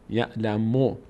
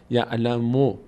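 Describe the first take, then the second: Both takes have the same delivery.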